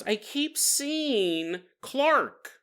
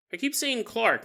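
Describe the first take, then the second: First: High, very slow, drawn-out words; mock haunted confession. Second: Said in the usual way. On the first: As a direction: stretch it out as an imitated frightened patient. Nancy confesses, then teller repeats it.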